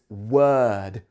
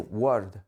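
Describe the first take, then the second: First: The vowel is the British er sound. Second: The vowel sounds like a Spanish-style vowel. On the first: The speaker calls it right. "but it's word" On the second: The speaker calls it wrong. "You might say word"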